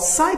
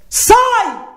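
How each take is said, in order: First: It is said softly and politely. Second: It is shouted loudly.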